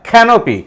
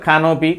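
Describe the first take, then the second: First: The stressed syllable gets extra breath and force. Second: The word is said plainly, without extra force. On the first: "extra breath ఫోర్స్ని అక్కడ ఇస్తాం" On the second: "మామూలుగా"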